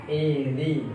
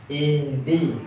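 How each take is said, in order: The two takes are said the same way.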